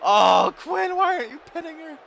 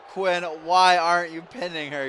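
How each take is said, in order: First: High, fast exasperated cry of why aren't you pinning her; quick high-pitched fan outburst; exasperated yelp. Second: Said in the usual way. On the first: Real, not acted. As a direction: blurt it out in disbelief. Frustrated at wrestler not pinning.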